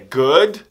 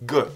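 First: The whole word is said in full. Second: The word is reduced to a G sound. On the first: "é good" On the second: "mas falando rápido vira somente um g"

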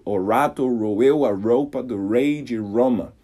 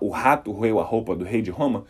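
First: The R sounds are curled back retroflex sounds. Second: The R sounds are made in the throat. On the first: "comece a tentar falar desse jeito" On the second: "ao invés de falar"

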